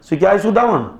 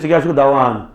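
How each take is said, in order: First: The speaker's own accent, with a short final vowel. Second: The other accent, with a long final vowel.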